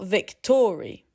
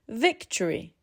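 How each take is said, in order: First: The middle vowel is said as a full vowel. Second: The middle vowel is reduced to a schwa. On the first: The speaker calls it wrong. "not victory" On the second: The speaker calls it right. "The middle vowel simply gives way"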